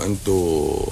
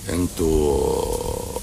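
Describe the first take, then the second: First: Said in the usual way. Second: انتوا stretched very slowly, low and soft; drawn out. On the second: Retold or imitated. Doctor calls out to people to see who is awake, long drawn out انتوا. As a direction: drag out انتوا like a sleepy call into the room. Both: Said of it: "قلت لهم".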